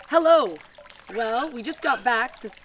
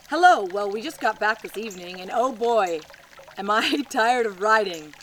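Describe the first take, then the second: First: Much higher, louder sing-song hello; hammed-up greeting. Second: Hammed-up greeting. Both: Reading a 1949 postcard to viewers, cheery mock greeting. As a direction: belt out the hello like a cheery letter writer.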